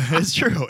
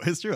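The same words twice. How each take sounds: First: Laughing it out, louder; giggling insistence. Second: Said in the usual way. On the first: Real, not acted. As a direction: say it through a laugh.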